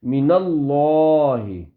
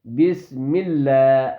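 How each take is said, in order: First: اللہ in من اللہ said full and heavy, slowly; heavy lam. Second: اللہ in بسم اللہ with a thin, light lam, slowly. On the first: Teacher demonstrates heavy lam to the student, slow. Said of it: "موٹی آواز میں پڑھیں گے". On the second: Teacher contrasts with the light lam after zer, slow. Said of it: "لام باریک پڑھیں گے". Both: Shown as a demonstration.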